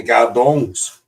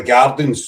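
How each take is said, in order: First: "Gardongs" with a mock-French "-ongs" ending; mock-posh pronunciation. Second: Said in the usual way. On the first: Shown as a demonstration. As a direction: say "Gardongs" as a fake posh version of Gardens. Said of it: "and it's all posh". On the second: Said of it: "So we say we live in the Gardongs".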